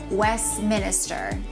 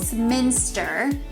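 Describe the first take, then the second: First: An extra syllable is added in the middle. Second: The name has no added middle syllable. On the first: The speaker calls it wrong. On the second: The speaker calls it right.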